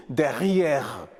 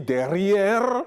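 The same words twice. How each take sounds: First: "derrière" with French guttural R; slow "derrière", R softened in the throat; R à la française. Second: Slow "derrière" with heavy, drawn-out R; R non français. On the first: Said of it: "le français dit derrière". (« derrière » avec R français guttural) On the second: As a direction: stretch the end of "derrière", rising. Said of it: "Au lieu de dire derrière". (« derrière » lent, R appuyé) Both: Shown as a demonstration.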